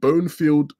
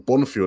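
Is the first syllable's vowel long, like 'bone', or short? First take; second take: long; short. First: The first syllable sounds like 'bone'. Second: The first syllable does not sound like 'bone'. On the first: The speaker calls it wrong. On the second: The speaker calls it right.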